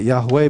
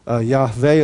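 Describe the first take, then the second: First: The middle consonant is a w sound. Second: The middle consonant is a v sound. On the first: The speaker calls it wrong. "It's not Yahweh because W is not pronounced in Hebrew" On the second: The speaker calls it right. "our best guess is"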